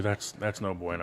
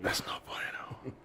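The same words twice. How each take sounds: First: Low, soft murmur; hushed dismay. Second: Barely audible, voiceless whisper. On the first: Host reacting to the Dodgers' losing record, low and hushed. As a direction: say it low under your breath. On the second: Host repeating the verdict on a losing record, whispered. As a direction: shrink it to the faintest whisper. Whispered echo of own phrase. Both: Pretend.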